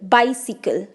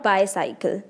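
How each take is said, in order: First: The second syllable sounds like 'sick'. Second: The second syllable sounds like 'sigh'. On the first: The speaker calls it right. "इसकी सही pronunciation है बाईसिकल" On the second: The speaker calls it wrong. "Not बायसाइकिल"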